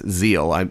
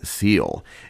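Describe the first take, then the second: First: The word begins with a buzzing Z sound. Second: The word begins with a hissing S sound. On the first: The speaker calls it right. "it's Zeal, S's are Z's" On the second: The speaker calls it wrong. "I pronounced the German wrong"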